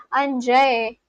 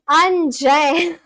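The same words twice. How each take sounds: First: "Anjay" dropped flat and falling, the way you say damn; trying "Anjay" the way you'd say damn. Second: "Anjay" with its pitch rising at the end; first tentative try at "Anjay", rising; rising question tune. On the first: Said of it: "like how I say damn". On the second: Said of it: "Do I say it like that?". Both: Shown as a demonstration.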